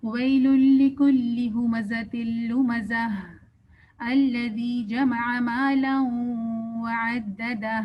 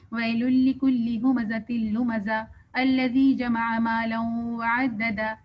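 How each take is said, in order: First: Slow recitation with the final ہا of لمزہ and وعددہ clearly breathed out; correct recitation. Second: Slow recitation with the final ہا in لمزہ and وعددہ swallowed; wrong recitation. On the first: Teacher showing students the proper ہا in recitation. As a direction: voice the throat ہا at each ending, slowly. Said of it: "ہا کو پروناؤنس کرنا ہے۔ کیسے؟". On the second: Teacher showing students the wrong way, ہا dropped. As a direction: drop the ہا at the ends, recite slowly. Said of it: "جب ہم اس کو غلط طریقے سے پڑھتے ہیں". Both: Shown as a demonstration.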